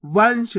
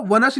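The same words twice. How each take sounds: First: वंश in one syllable, nasal straight into sh; सही उच्चारण. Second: वनश with a full separate न, va-na-sh; गलत उच्चारण. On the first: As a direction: say वंश with no vowel after the n. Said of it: "तो अपन कैसे पढ़ेंगे". (वंश, न को आधा रखकर नाक से) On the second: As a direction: break वनश open with a vowel after न. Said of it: "आपको वनश नहीं पढ़ना". (वनश, पूरा न बोलकर) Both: Shown as a demonstration.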